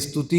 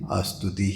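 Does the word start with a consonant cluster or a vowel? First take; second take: consonant cluster; vowel. First: The word starts directly with the st cluster. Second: A short vowel comes before the st cluster. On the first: This is the standard, educated form. "अरे स्तुति होता है महाराज" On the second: This is the Awadhi dialect form. "हम तो अवधि भाषा में अस्तुति ही बोलेंगे"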